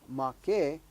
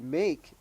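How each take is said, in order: First: "make" said in Hawaiian as MAH-keh, two syllables; "make" in Hawaiian, mah-keh with an open ah; "make" as two clear Hawaiian syllables, mah and keh. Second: "make" said as the English word, rhyming with cake; "make" read the English way, meyk; a plain English "make", one syllable. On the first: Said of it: "it's actually pronounced make". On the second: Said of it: "looks like the word make, but it's actually pronounced". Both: Shown as a demonstration.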